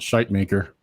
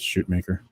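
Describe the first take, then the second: First: The first part rhymes with kite. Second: The first part rhymes with boot. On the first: The speaker calls it wrong. "I like to pronounce it shite maker, but no, it's not" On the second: The speaker calls it right. "It's shoot maker"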